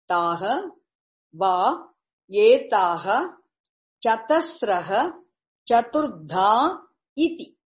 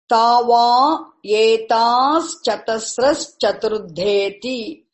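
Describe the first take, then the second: First: The words are separate, each with full endings. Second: The words are joined, with endings merged together. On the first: "If you break it" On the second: "exactly what is there without breaking the sandhi"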